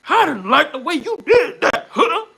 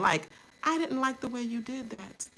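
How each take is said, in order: First: Higher and louder, firm and pointed; strong firm delivery. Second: Said in the usual way. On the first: Retold or imitated. Showing how she stood up to him, higher, louder, firm. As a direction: put strength behind every word. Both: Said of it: "You see that strength?".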